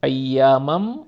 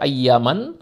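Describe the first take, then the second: First: The final n becomes m, joining the next word. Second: The final n stays n, separate from the next word. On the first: The speaker calls it right. "তাজবিদের নিয়ম অনুযায়ী পড়তে হলে আমাকে বলতে হবে" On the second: The speaker calls it wrong. "যদি তাজবিদের নিয়ম ছাড়া পড়তাম"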